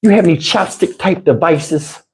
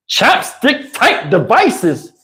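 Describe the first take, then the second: First: Imitating girlfriend. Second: Slow, incredulous echo of her words; slow mocking repeat. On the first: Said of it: "I couldn't take it". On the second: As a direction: drag out each word in disbelief. Mocking her odd question.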